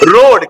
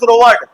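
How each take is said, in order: First: The word is said as one syllable. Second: The word is split into two syllables. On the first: The speaker calls it right. "तो ए नहीं पढ़ना" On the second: The speaker calls it wrong. "Do not pronounce रोवर्ड"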